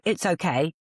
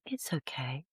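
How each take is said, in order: First: It is said in a harsh, curt tone. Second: It is said in a gentle, soothing tone. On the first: The speaker calls it wrong. "I didn't go" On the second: The speaker calls it right. "I went, it's okay. There's a tone there"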